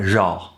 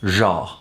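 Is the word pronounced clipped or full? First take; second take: clipped; clipped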